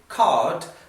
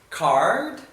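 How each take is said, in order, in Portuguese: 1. O R é suave e sutil, estilo britânico. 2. O R é pronunciado com força, estilo americano. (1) "como fariam os britânicos, com um R mais sutil" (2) "usando pronúncia americana, esse R bem pronunciado, bem forte"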